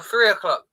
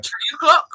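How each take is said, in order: First: Said in the usual way. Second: "Three" said as "tree"; "Three" opening on a T, Irish style. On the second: Shown as a demonstration. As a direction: say "Three o'clock" with a hard T for the TH. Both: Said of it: "three and T seem to".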